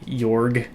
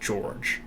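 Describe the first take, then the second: First: The name begins with a Y sound. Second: The name begins with a J sound. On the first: "Do you want me to say it with like a Y because it's a J" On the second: "do you want me to say it like J, like George"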